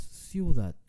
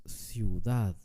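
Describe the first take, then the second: First: "ciudad" wrongly stressed on CIU, DAD left weak; stress on first syllable. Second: "ciudad" slow, with a long stressed DAD; stress on last syllable. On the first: Teacher showing how we don't say "ciudad", stressed on CIU. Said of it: "No decimos ciudad". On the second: Teacher showing how we say "ciudad", stressed on DAD. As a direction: stretch the end of "ciudad": ciu-DAAD. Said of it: "decimos ciudad". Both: Shown as a demonstration.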